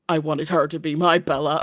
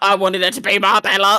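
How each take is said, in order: First: It is said flat, serious and deadpan. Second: It is said lightly, sweetly and smiling. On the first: The speaker calls it wrong. "was very like serious" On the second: The speaker calls it right. "Maybe be a bit nice and cutesy"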